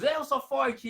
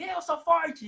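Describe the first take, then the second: First: Chanted, louder and higher, gleeful; chanted, rising excitement in a repeat-after-me game; excited chant. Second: Chanted, much higher and louder, thrilled; chanted, echo it back like an excited little boy; chanted, a little boy shouting it back with glee; excited child chant. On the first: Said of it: "nós ficamos ali". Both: Retold or imitated.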